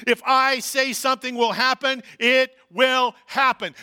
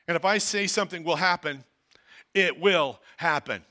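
First: Louder, slowed "it will happen"; emphatic reading. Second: Said in the usual way. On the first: Shown as a demonstration. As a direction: drive the promise home, slowing at the end. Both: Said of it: "One more time".

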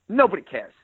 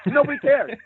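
First: Said in the usual way. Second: Nobody pitched much higher, pushed hard; emphatic repeat. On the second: Shown as a demonstration. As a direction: repeat Nobody up high to hammer it home.

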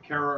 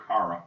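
First: Kara said as CARE-uh; Kara rhyming with Sarah; first vowel as in "care". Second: Kara said as CAR-uh; Kara starting like the word car; first vowel as in "car". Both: Shown as a demonstration. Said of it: "Is it Kara or Kara?".

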